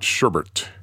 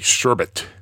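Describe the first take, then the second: First: The second syllable has an added r sound. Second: The second syllable has no r sound. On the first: The speaker calls it wrong. "not sherbet" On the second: The speaker calls it right. "It is S-H-E-R-B-E-T, sherbet"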